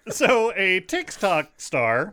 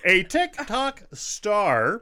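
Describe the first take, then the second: First: Put-on slow, loud old-timey announcer; 1950s narrator. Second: 1950s narrator. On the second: Acted. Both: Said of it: "old-timey, like, voice in my head".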